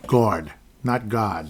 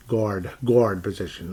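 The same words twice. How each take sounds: First: Slow "guard" then a Boston "guard" with no r; New York versus Boston guard. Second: Slow New York "guard", open vowel. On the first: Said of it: "that's Boston". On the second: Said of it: "That's, that's New York". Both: Shown as a demonstration.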